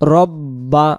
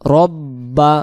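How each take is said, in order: The two takes are said the same way.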